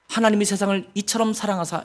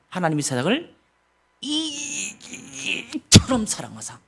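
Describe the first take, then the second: First: It is read flatly, without feeling. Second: It is read with deep, drawn-out feeling.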